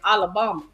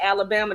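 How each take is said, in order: First: The word is said in a local Southern accent. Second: The word is said in a general, non-Southern accent. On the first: This is how the local people say it. "they say Alabama" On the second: This is how outsiders say it. "They don't say Alabama"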